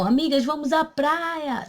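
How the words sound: It is said as an exclamation.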